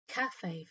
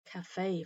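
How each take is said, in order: First: It is said with the British pronunciation. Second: It is said with the American pronunciation. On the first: "Cafe for Brits" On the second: "cafe for Americans"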